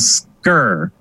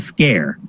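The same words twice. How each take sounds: First: The word rhymes with her. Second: The word rhymes with care. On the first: This is how the spelling suggests it is said. The speaker calls it wrong. "if you read it, you probably think it's called" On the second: This is how it is said in Wales. The speaker calls it right. "is pronounced Scare in Wales... the correct pronunciation"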